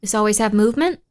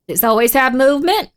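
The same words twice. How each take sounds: First: Said in the usual way. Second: Louder questioning, rising on "movement"; insistent repeated question with a rising end; emphatic question. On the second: Real, not acted. Repeats her own question more forcefully.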